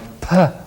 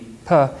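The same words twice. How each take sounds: First: The P is released with strong, heavy force. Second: The P is released with normal, light force. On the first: "making it stronger by going P" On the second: "a regular P"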